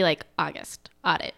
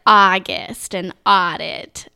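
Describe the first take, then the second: First: "August" and "audit" said short and soft, vowels not stretched; standard pronunciation. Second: "August and audit" said slowly with long drawn-out vowels, Minnesota style; stretched Minnesotan vowels. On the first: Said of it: "I guess it's supposed to be". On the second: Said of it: "Minnesotans really stretch it out". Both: Shown as a demonstration.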